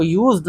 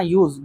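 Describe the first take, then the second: First: यूज्ड with an audible D ending; wrong pronunciation demo. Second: यूज ending on Z, no D; silent D. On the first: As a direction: sound the D after the Z in यूज्ड. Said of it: "इसको यूज्ड नहीं पढ़ना है". (यूज्ड के आख़िर में ड साफ़ बोलें) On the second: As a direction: drop the D at the end of यूज. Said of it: "डी silent है यहाँ पे". (यूज में अंत का ड मौन रखें) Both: Shown as a demonstration.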